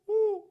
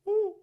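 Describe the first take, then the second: First: The vowel sounds hollow, like a hooting owl. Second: The vowel sounds hollow, like a hooting owl.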